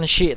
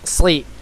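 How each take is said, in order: First: The consonant is a hushing sh sound. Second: The s is heavy, with the tongue raised. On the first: The speaker calls it wrong. "ataupun bukan shi" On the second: The speaker calls it right. "tapi sli"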